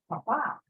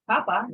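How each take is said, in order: First: The stress is on the last syllable. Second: The stress is on the first syllable. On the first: It means father. The speaker calls it right. "with an accent on this last letter A, it becomes father" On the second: It means potato. The speaker calls it wrong. "You wouldn't say papa"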